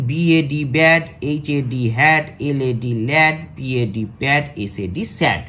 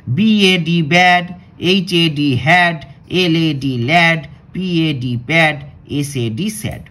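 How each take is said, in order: First: Steady spelling, fading at the end; spelling drill. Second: Loud, slow letter-by-letter spelling; slow spelling drill. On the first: Teacher to pupils, repeating the spelling drill more calmly. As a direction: spell them again, less forcefully. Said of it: "আরেকবার পড়ি". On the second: Teacher to pupils, spelling words aloud slowly and loudly. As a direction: spell each word out loudly and slowly, then say it. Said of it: "তাহলে চলো আগে আমরা এটা পড়ি". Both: Shown as a demonstration.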